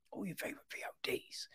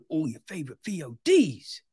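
First: Fast, much softer whisper; whispered aside. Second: Said in the usual way. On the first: Shown as a demonstration. Reviewer repeating his plug to viewers, fast whisper. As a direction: hush it like a secret tip.

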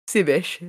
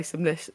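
First: "Simish" said without the L, as two syllables; "Simish", dropping the L sound; wrong pronunciation. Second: "Simlish" with a clear L, Sim-lish; corrected pronunciation. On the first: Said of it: "No, it's Simlish". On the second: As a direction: say "Simlish", stressing the L sound. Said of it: "Oh, sorry, Simlish". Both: Real, not acted.

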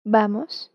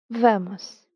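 First: "Vamos" as in Spanish, starting with a B; Spanish "Vamos" with the B sound. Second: "vamos" said the Portuguese way with a clear V; Portuguese "vamos", the V bitten on the lip; "vamos" with a crisp Portuguese V; Portuguese accent. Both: Shown as a demonstration. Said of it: "pero con un diferente acento".

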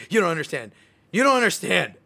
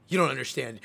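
First: Building into a louder, higher mock outburst; frustrated son, repeating himself ever louder at mom; mad at mom. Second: Said in the usual way. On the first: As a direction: let the frustration climb on each repeat. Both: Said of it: "start getting mad at my mom".

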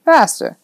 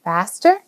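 First: "Faster" stated high with a falling end; falling statement. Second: "Faster" with a rising, questioning end; curious question. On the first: Man tempts the boy about his new car, "Faster" falling. Man teases with one-word answer. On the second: Boy checks about the new car, curious rising "Faster". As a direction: ask "Faster" back, lifting the end. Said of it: "Joe couldn't help but be curious". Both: A narrator's reading.

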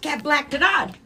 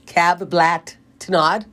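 First: High, loud backwards phrase; spiced up. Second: Backwards speech. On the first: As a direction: punch up the reversed phrase. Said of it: "we'll spice it up". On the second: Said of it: "say it again". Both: Shown as a demonstration.

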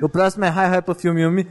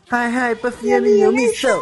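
First: Said in the usual way. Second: High, slow showy title call; show title announcer. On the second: Pretend. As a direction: announce it like a TV opener.

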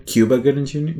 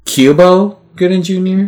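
First: "Cuba" said KYOO-buh, ending in uh; "Cuba Gooding Junior" with a final uh sound; plain "Cuba". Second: "Cubo" said KYOO-boh, ending in oh, higher; "Cubo Gooding Junior" with a final oh sound; "Cubo" pronunciation. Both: Shown as a demonstration. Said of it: "Cuba doesn't sound right".

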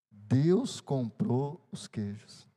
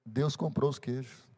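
First: Deus comprou os queijos, drawn out very slowly word by word; slow emphatic. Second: Said in the usual way. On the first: Shown as a demonstration. Pastor repeats the punchline to the church, very slow and solemn.

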